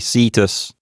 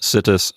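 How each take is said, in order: First: The i vowel is long. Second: The i vowel is short.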